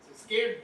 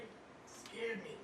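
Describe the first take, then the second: First: Said in the usual way. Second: Softer, x0.5 slow, half to himself; hushed slow repeat. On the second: Shown as a demonstration. Comic repeating to the crowd how the doctor spooked him, hushed and slow. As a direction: let the words sink, slow and soft.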